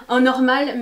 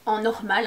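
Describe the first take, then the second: First: En normal said again louder, leaning on normal; emphatic repeat. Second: Said in the usual way. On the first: Shown as a demonstration. Correcting herself for viewers: louder, stressed normal. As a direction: press on normal to insist. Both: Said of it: "hein, pas riche".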